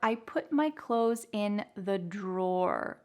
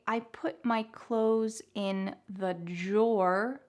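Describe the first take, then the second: First: Drawer begins with a clear D R sound. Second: Drawer begins with a J-like sound. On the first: "with a little bit more of a clear D R sound" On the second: "with a J sound"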